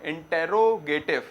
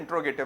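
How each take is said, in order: First: The vowel after 'int' is kept in full. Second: The vowel after 'int' is dropped entirely. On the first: "spelling तो क्या है इंटेरोगेटिव" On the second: "pronunciation में इंट्रोगेटिव बोला जाता है ज्यादातर"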